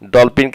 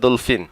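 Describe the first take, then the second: First: The word has its usual Bengali pronunciation. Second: The word has a slightly altered Arabic pronunciation.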